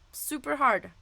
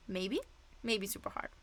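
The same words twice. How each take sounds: First: Said in the usual way. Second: Soft unvoiced afterthought; whispered aside. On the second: Real, not acted. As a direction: whisper it as a sly correction. Teacher revises the rating, whispered.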